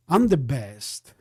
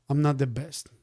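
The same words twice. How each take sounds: First: Mock bragging. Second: Said in the usual way. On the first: Trader jokes he is the best, lower smug boast. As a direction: lower and slow: I'm the best, smug and drawn out. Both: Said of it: "That's not the way I talk".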